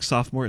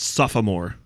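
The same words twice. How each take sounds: First: The middle vowel is dropped: two syllables. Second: The middle vowel is sounded: three syllables.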